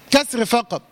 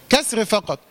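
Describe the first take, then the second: No difference in how they are said.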